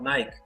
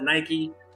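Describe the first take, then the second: First: The name is said in the original Greek way. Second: The name is said in the common everyday way. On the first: This is how the name of the goddess is said. The speaker calls it right. "it's really supposed to be called Nike" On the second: This is how most people say the brand name. The speaker calls it wrong. "Everyone calls it Nike"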